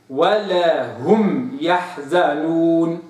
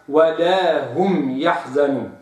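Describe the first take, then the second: First: ولا هم يحزنون with clear separation, slow; correct reading. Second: ولا هم يحزنون run together, the mistaken form; wrong reading. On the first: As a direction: recite ولا هم يحزنون slowly and cleanly. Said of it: "وإنما هذا تخليص". (النطق الصحيح ببطء شديد) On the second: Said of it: "ولا أقرأها". (النطق الخاطئ) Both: Shown as a demonstration.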